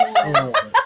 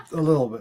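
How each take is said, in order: First: Squeaked through a laugh, much higher. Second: Said in the usual way. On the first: Real, not acted. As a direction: tease while laughing. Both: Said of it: "So hopefully I redeemed myself".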